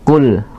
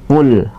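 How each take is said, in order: The two takes are said the same way.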